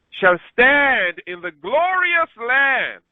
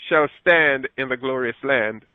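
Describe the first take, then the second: First: Shall stand in the glorious land drawn out slow and high; solemn emphatic scripture proclamation; slow, emphatic reading. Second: Said in the usual way. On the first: Acted. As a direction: lean hard on glorious land, slowly. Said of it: "Verse sixteen again".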